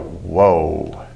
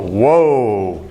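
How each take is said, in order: First: It sounds stern and disapproving. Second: It sounds impressed and admiring.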